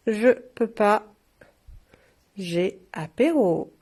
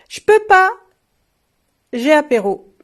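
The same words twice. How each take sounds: First: Slow repeat. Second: High, loud exclaimed slogan; punchline. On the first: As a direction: savour each word slowly. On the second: Shop owner reading a funny glass slogan, loud and high. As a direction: call it out like a happy excuse. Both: Shown as a demonstration.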